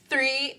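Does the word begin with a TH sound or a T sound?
TH sound. The word begins with a TH sound.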